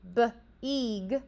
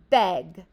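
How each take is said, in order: First: The vowel is long, like 'ee'. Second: The vowel is short, like 'eh'. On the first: The speaker calls it wrong. "I didn't say b-eeg" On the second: The speaker calls it right. "Short vowel sound"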